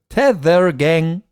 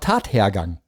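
First: It is read as Tether plus gang. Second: It is read as Tat plus hergang. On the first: The word is misread as a foreign-looking phrase. The speaker calls it wrong. "da stand Tether Gang" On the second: The word means the course of events of a crime. The speaker calls it right. "Es war Tathergang"

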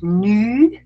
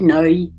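First: The vowel is one single, steady sound. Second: The vowel glides between two sounds. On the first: This is the southern dialect form. "Also die Südlichen haben den sogenannten Monophthong, also eigentlich ein Laut" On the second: This is the northern form. "die anderen haben den zwei Laut, ein Diphthong"

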